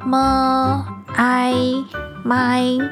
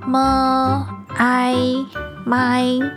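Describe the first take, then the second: First: The pitch stays high and level. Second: The pitch stays high and level.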